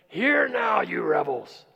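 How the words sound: It is said harshly and with frustration.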